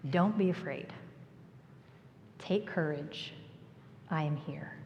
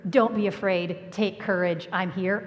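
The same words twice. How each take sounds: First: Gentle reassurance. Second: Said in the usual way. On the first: Retold or imitated. Jesus' calming words.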